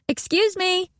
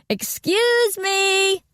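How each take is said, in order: First: It is said louder than normal. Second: It is yelled very loudly.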